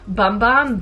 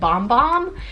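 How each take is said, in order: First: The vowel sounds like the one in 'bum'. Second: The vowel sounds like the one in 'bomb'. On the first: The speaker calls it wrong. "I always want to say Bum Bum, but I got corrected" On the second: The speaker calls it right. "the brand actually pronounces it Bomb Bomb"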